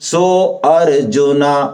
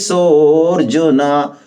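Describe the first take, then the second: First: A separate 'a' sound starts the second word. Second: The words join with no separate 'a' sound. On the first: The speaker calls it wrong. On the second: The speaker calls it right.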